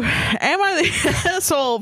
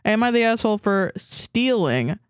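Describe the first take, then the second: First: Slow read broken by laughter; laughing. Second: Said in the usual way. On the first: Shown as a demonstration. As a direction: try to read it but keep cracking up. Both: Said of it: "Try take two".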